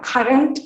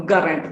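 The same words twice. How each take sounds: First: Said in the usual way. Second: "current" said as "gurrent"; voiced g for k. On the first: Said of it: "the k sound". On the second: Shown as a demonstration. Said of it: "replaced by the voiced V last stop".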